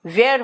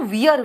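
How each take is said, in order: First: वेयर said as "vair", open e vowel; correct pronunciation. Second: वियर said as "veer", the vowel like ee; wrong pronunciation. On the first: Teacher correcting students, stating वेयर with an open vowel. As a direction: give the right वेयर clearly, rhyming with air. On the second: Teacher mocking students' mispronunciation, saying वियर as veer. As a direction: mimic the wrong वियर with a long ee. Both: Shown as a demonstration. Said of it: "वियर कुछ नहीं होता यार".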